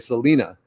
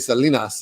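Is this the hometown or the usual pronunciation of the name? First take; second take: usual; hometown. First: The name is said in the common outside way. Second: The name is said in the local hometown way. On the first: "other people say" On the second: "where I'm from, they say"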